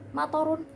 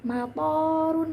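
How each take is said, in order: First: All vowels in the word are short. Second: The vowel in the second syllable is long. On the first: Rain. "tanpa adanya jeda dalam toknya itu" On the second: Airport. "di situ ada tanda panjangnya"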